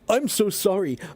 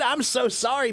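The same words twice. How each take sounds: First: It sounds serious and worried, like a real apology. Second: It sounds light and laughing, not troubled at all. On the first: Not speaking well is treated as a real problem. The speaker calls it wrong. "Don't say like" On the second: Not speaking well is treated as no big deal. The speaker calls it right. "Laugh and be like"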